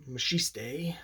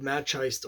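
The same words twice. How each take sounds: First: Machiste said as "ma-shee-stay"; alternative pronunciation. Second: Machiste said as "match-iced"; anglicized pronunciation. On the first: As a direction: say Machiste slowly in three syllables, ending in "stay". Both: Shown as a demonstration. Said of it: "however you pronounce it".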